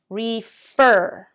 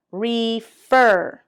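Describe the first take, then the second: First: Whispered. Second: Said in the usual way. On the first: Shown as a demonstration. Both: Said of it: "stress demo repeated twice".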